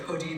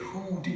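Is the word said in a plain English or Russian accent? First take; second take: plain English; Russian. First: It is said in a plain English accent. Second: It is said in a Russian accent. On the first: "Instead of" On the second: "they say"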